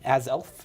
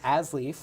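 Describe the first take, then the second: First: The name is said like 'az-elf'. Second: The name is said like 'as-leaf'. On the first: The speaker calls it right. "according to the card" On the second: The speaker calls it wrong. "excuse me"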